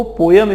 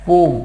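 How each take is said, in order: First: पोयम said in two syllables, po-yum; the wrong way: पोयम with a y glide, po-yum; wrong pronunciation. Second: पोम said as one syllable, pohm, no y glide; the right way: पोम, single syllable pohm; right pronunciation. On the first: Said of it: "इसका pronunciation सही नहीं है". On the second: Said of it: "इसका जो सही pronunciation है वो है". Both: Shown as a demonstration.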